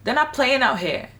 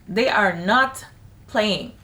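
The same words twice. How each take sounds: First: Not said high and loud; stress on not. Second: They are not with a pause before playing; split for emphasis. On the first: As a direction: punch the word not. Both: Real, not acted.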